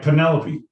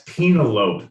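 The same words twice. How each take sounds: First: Said in the usual way. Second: Penelope said as PEE-nuh-lope; Penelope in three syllables, slowly, silent final e; mispronounced as read. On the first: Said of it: "That's Penelope". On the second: Shown as a demonstration. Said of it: "you're reading things off a prompter".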